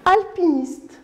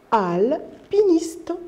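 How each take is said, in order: First: Said in the usual way. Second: "Alpiniste" very slow, split after "Al"; careful articulation. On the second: Shown as a demonstration. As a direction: hold "Al", pause, then finish "Alpiniste". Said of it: "Regardez ma bouche". (« Alpiniste » très lent, coupé après « Al »)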